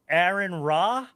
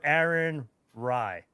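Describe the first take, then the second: First: The surname ends in an 'ah' vowel. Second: The surname ends in an 'eye' vowel. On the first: "Is it Ra or Rye?" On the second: "like Thai"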